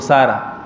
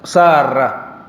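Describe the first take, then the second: First: The r sound is short and single. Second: The r sound is held long and doubled. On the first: The speaker calls it wrong. "Nós habituamos a chamar por Sara" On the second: The speaker calls it right. "a pronúncia correta é com Ra, Ra, Mushaddada"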